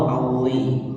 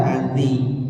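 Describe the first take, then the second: First: "auzi" slowly, with a heavy emphatic z; "auzi" as a careful thick-letter demo; thick zho. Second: "azi" slowly, with a thin, light z; "azi" as a careful thin-letter demo. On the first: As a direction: draw out "auzi" with a thickened, full-mouthed sound. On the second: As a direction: draw out "azi" without thickening the consonant. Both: Shown as a demonstration. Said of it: "auzi beda ya".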